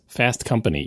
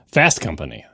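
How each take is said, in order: First: The stress falls evenly on both words. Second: The stress falls mainly on Fast. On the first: It is said the American way. The speaker calls it right. "No, it's Fast Company. Equal emphasis on both syllables" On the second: It is said the British way. The speaker calls it wrong. "He said it like the British would say Top Gear"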